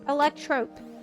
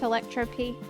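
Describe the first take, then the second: First: The name ends in one syllable rhyming with rope. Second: The name ends with a separate letter P sound. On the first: The speaker calls it right. "It's electrope. It's no P P" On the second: The speaker calls it wrong. "you're saying it wrong"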